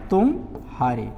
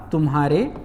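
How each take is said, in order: First: तुम्हारे split slowly as तुम, pause, हारे; pause inside word. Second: तुम्हारे with no audible pause between म and ह; joined as one word. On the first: Teacher showing the longer juncture, तुम and हारे held apart. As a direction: leave a clear gap after तुम, then हारे. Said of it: "जो विराम है वो थोड़ा बड़ा है". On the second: Teacher showing the short juncture in तुम्हारे, run together as one word. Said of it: "विराम है बहुत छोटा है". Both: Shown as a demonstration.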